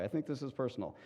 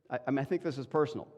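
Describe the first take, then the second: First: "I think this is personal" said softer and settled, as a firm statement; positive way. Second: Said in the usual way. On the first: Shown as a demonstration. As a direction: state it calmly, as a plain conviction. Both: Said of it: "Let me say it the positive way".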